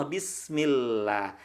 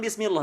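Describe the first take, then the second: First: "bismillah" slow, soft and lower, clear l, open a; correct thin lam. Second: "bismillah" with dark l and o vowel, "bismilloh"; wrong thick bismillah. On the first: Teacher modelling lam after kasrah, thin drawn-out "bismillah". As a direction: stretch a light l in "bismillah". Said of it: "lam dibaca tipis". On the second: Teacher showing the error after kasrah, thick "bismillah". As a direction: round the end of "bismillah" to "-loh". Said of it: "bukan bismillah". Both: Shown as a demonstration.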